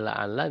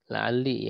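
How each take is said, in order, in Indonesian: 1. Lam terakhir diucapkan dengan vokal 'a'. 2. Lam terakhir diucapkan dengan vokal 'i'. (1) "bisa fathah" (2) "jadi dikasrohkan"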